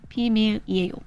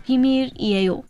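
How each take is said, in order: First: Said in the usual way. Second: Slow, careful 비밀이에요, pitched up. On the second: Shown as a demonstration. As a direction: draw out 비밀이에요 syllable by syllable. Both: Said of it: "is a slow way to do it".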